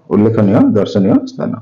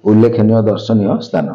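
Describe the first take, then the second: First: ଉଲ୍ଲେଖନୀୟ ଦର୍ଶନୀୟ ସ୍ଥାନ repeated with the pitch lifting on ସ୍ଥାନ; ଉଲ୍ଲେଖନୀୟ stressed, ସ୍ଥାନ rising at the end; rising tune. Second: ଉଲ୍ଲେଖନୀୟ ଦର୍ଶନୀୟ ସ୍ଥାନ said as a flat, settled statement falling at the end. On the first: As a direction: say ଉଲ୍ଲେଖନୀୟ ଦର୍ଶନୀୟ ସ୍ଥାନ again, ending on an upward lilt. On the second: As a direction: announce ଉଲ୍ଲେଖନୀୟ ଦର୍ଶନୀୟ ସ୍ଥାନ like a heading, dropping on ସ୍ଥାନ. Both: Shown as a demonstration. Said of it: "repeated with a different tune".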